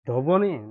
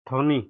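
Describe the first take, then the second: First: A 'b' sound follows the first consonant. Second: No 'b' sound follows the first consonant. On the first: The speaker calls it wrong. "ধবনি বলবেন না" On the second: The speaker calls it right. "এটি ধ্বনি"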